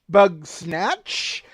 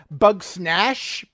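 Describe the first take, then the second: First: The name ends with a ch sound. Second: The name ends with a sh sound. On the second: "I've heard it from Jen pronounced bug snash"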